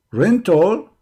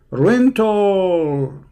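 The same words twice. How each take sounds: First: "Rental?" thrown back with a rising tune; incredulous question. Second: "Rental." stated with a falling tune, drawn out; flat statement. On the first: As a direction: echo "Rental?" as if you can't believe it, ending up. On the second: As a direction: read "Rental." plainly off the page, ending down. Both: Shown as a demonstration. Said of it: "Kind of what?".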